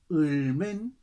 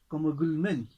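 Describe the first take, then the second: First: The word begins directly with a vowel. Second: The word begins with a g sound.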